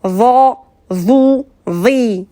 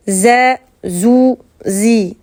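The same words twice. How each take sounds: First: "Va, vous, vi" with a heavy, dark voiced TH; thick interdental letter. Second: "Z, zou, zi" with a light hissing Z; fine thin Z. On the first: Teacher shows the difference from Z, thick "Va, vous, vi". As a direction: thicken "Va, vous, vi", tongue between teeth. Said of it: "Vous voyez la différence?". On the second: Teacher contrasts the finer letter, light "Z, zou, zi". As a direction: keep "Z, zou, zi" thin behind the teeth. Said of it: "Z qui est beaucoup plus fine". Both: Shown as a demonstration.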